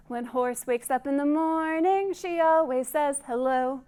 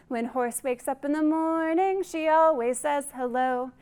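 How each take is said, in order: Both takes have the same delivery.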